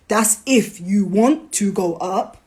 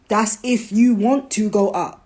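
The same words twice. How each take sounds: First: Slow, with the word "if" leaned on hard and the line rising at the end; stress on if. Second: The word "you" pressed and the line falling to a close; stress on you. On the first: To the audience, slow and weighing "if". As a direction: lean hard on "if" as a condition you want heard. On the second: To the audience, landing hard on "you". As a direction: point the stress at "you" and let it drop. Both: Shown as a demonstration. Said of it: "repeated for emphasis".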